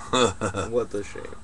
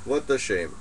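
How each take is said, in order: First: Slow, lowered rueful sigh of "What a shame"; mock lament. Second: Said in the usual way.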